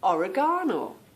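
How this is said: It is said with a British accent.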